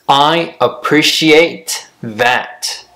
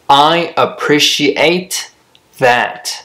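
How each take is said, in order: Both takes have the same delivery.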